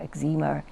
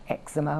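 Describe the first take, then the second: First: The word is said the American way. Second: The word is said the British way.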